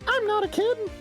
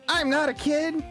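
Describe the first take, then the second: First: The voice is very high-pitched. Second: The voice is lower-pitched.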